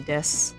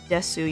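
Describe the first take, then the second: First: The final u vowel is dropped. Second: The final u vowel is pronounced. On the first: "you actually don't pronounce the U, you can just say des" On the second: "when you see the word desu"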